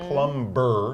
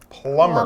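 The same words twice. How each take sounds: First: The B in the middle is pronounced. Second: The B in the middle is silent. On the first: The speaker calls it wrong. "It's not plumber" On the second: The speaker calls it right. "you don't say the B"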